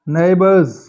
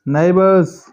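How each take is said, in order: Both takes have the same delivery.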